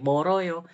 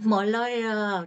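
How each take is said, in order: First: The middle consonant is a flapped R sound. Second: The middle consonant is a clear L sound. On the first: The speaker calls it right. "Oke, Moroyo" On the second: The speaker calls it wrong. "Kita tidak sekiut itu untuk mengatakan Moloyo"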